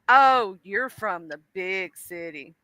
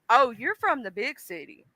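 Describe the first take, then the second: First: The tone sounds condescending and mocking. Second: The tone sounds curious and genuinely interested. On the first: The person is putting the listener down. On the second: The person is sincerely asking about the city.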